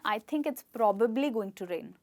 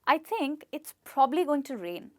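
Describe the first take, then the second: First: Probably is said with two b sounds. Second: Probably is said with only one b sound. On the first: The speaker calls it wrong. "बहुत लोग बोलते हैं" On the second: The speaker calls it right. "इसलिए हम कहेंगे प्रॉब्ली"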